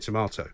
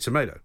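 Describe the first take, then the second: First: Tomato is pronounced the British way. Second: Tomato is pronounced the American way. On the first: This is not how people in America say it. The speaker calls it wrong. "you don't say tomato" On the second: This is how people in America say it. The speaker calls it right. "when you're in America as well, you say tomato"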